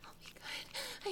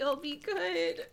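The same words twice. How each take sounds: First: Breathless high whisper, begging; a high, hushed promise; whispered plea. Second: Teary begging promise; voiced, tearful promise; crying plea. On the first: Acted. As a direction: plead in a frightened whisper. Whispered plea, then cried. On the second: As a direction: beg through tears. Voiced plea after whisper.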